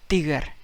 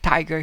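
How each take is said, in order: First: The first t sound is soft. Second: The first t sound is hard. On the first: "he says it tiger ... T becomes ta in Spanish" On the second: "Instead of tiger"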